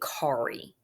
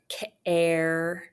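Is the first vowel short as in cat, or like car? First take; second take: like car; short. First: The first vowel sounds like the word car. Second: The first vowel is short, as in cat. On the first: The speaker calls it wrong. "we don't say kari" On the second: The speaker calls it right. "the preceding vowel is often short"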